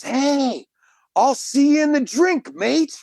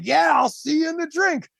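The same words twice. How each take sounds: First: High-pitched mock holler of a hearty swimmer; high retold shout at ordinary volume; retold Aussie yell. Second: High-pitched, enthusiastic retold comeback; imitating an upbeat holler back; eager shouted reply. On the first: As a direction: call it out high, imitating an Australian's yell. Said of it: "And he yells". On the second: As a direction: echo the greeting back in a high call. Echoing the Australian's shouted greeting.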